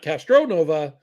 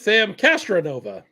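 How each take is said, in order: First: The name is said with an 'oh' vowel. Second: The name is said with an 'ah' vowel. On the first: This is the usual spelling of the name. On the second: This matches the spelling on the jersey. "as his jersey says"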